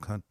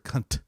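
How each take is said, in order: First: The final T is pronounced softly. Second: The final T is pronounced strongly. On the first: It is meant affectionately about a friend. "that's like, yeah, it's your buddy" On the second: It is meant as an insult. "if you like really pronounce the T"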